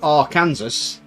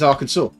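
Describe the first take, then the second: First: The word ends like 'Kansas'. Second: The word ends like 'saw'. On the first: "something spelled Arkansas" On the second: "and it's Arkansas"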